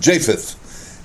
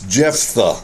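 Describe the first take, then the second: First: The name ends in a 'th' sound. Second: The name ends in an 'ah' sound. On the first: The speaker calls it wrong. "My whole life I have mispronounced his name. I have been calling him Japheth" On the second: The speaker calls it right. "and it's Jephthah"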